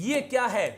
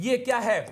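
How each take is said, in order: No difference in how they are said.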